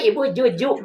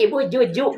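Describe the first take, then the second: First: The word is said with a j sound. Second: The same.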